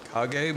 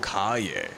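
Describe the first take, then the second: First: The middle consonant is a hard g. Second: The middle consonant is a y sound. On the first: The speaker calls it wrong. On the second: The speaker calls it right.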